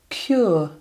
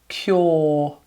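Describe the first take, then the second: First: The vowel glides from an oo sound to uh. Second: The vowel is one long or sound. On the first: This is the traditional received pronunciation. "technically we would say cure" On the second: This is the newer, now common pronunciation. "a lot of people now are just using that sound"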